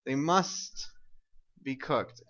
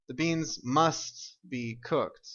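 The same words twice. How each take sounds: First: "must" lifted with a pause before "be cooked"; "must" 올리고 잠깐 쉬기; stress on must. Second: The beans must be cooked, slow, leaning on "must"; 천천히 "must"를 힘주어; stress on must. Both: Shown as a demonstration. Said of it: "using my modal must to emphasize".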